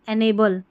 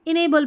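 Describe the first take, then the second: First: The first syllable sounds like 'en'. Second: The first syllable sounds like 'in'. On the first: "एनेबल की जगह" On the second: "इनेबल भी बोल देते हैं"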